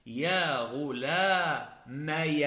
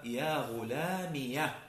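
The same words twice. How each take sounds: First: "غلامي" stretched as ghulaamaya; very slowly say "غلامي" as ghu-laa-MA-ya; drawn-out "غلامي" with a before the voweled ya; kasra turned fatha. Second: "غلامية" said ghulaamiya, ending in -ya; slow "غلامية" with i before the voweled ya; ya with fatha. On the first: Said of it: "بقلب الكسرة التي كانت". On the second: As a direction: slowly spell out "غلامية" as ghu-laa-MI-ya. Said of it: "بإثبات الياء وفتحها". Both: Shown as a demonstration.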